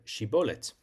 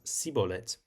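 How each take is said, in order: First: The word begins with a sh sound. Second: The word begins with an s sound. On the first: "couldn't pronounce the word shibolet" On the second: "pronouncing it in their dialect as sibolet"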